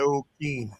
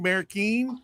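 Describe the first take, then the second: First: The middle consonant is a D sound. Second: The middle consonant is an R sound. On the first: The speaker calls it right. "just make a D sound" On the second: The speaker calls it wrong. "I'm going to get it right one of these days"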